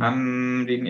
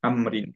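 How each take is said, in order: First: The m is held with a nasal hum. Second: The m is short with no nasal hum. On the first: The speaker calls it wrong. "আমরিন এভাবে করবো না" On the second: The speaker calls it right. "গুনা দিব না আর কি, আমরিন এভাবে করবো"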